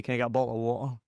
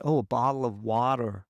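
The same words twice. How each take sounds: First: "Can I get a bottle of water?" in a strong Scottish accent, with a dropped t in "bottle". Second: "bottle of water" with an American flapped t and an r at the end; Americanised pronunciation. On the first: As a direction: say it like a broad Scot ordering in a shop. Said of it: "if I'm very Scottish". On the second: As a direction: switch to an American accent to be understood. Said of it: "And I'll be like". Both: Shown as a demonstration.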